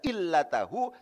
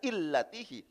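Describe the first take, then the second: First: The vowel after the t is a. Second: The vowel after the t is i. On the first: "tidak dibaca illatahu" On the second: "tidak dibaca illatihi"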